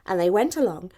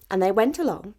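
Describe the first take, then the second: No difference in how they are said.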